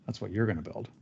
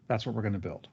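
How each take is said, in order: First: Soft aside with the weight on "you're"; stress on YOU'RE. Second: Said in the usual way. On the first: Real, not acted. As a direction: correct yourself quietly, leaning on "you're". Corrects we're to you're.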